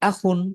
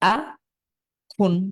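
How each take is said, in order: First: The syllables are joined without any pause. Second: There is a pause between the two syllables. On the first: "একসাথে মিলিয়ে পড়বো" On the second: "থেমে গিয়ে"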